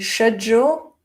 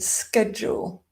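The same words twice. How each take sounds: First: It is said with a British pronunciation. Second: It is said with a North American pronunciation. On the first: "Being British, I say schedule" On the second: "In North American English, that would be schedule"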